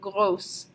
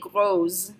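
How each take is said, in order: First: The middle consonant is a hissing S sound. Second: The middle consonant is a buzzing Z sound. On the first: The speaker calls it right. "We want to keep it as gross" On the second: The speaker calls it wrong. "makes a Z sound, and we don't want to say gros"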